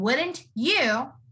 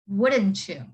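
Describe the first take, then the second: First: Each word is pronounced separately and clearly. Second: The words blend together into one reduced form. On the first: "instead of saying wouldn't you" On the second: "I would say it as wouldn't you?"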